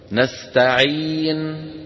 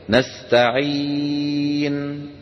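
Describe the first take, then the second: First: The long vowel is held for two counts. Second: The long vowel is held for four counts. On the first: "هذا سكون محض حركتين" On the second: "هذا سكون محض أربعة"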